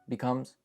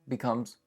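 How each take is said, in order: No difference in how they are said.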